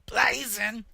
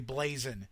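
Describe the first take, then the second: First: It is said with strong, forceful emphasis. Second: It is said plainly, without extra force.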